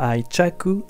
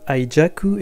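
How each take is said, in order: First: The middle consonant is a voiceless 'ch' sound. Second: The middle consonant is a voiced 'j' sound. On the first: This is the pronunciation that came later. "et non pas aichaku à l'origine" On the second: This was the original pronunciation in Buddhist texts. "Prononcé semble-t-il dans les textes bouddhistes aijaku"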